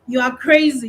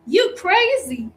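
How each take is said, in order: First: Said in the usual way. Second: Imitating Madea. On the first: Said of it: "you're not going to go". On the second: Teacher showing how the character says it, slow and high. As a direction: drag it out like the movie aunt. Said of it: "is Mehdi gonna say something like".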